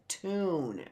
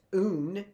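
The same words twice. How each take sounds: First: "tune" as one smooth word; soft, drawn-out whole "tune"; blended word. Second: "tune" split as tuh-oon; two-piece "tune", tuh then oon; unblended word. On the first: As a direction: join the T straight into oon in "tune". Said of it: "That's blending". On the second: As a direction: break "tune" after the T. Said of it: "It can't, it's not tune". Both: Shown as a demonstration.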